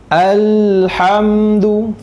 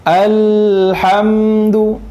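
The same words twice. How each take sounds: The two takes are said the same way.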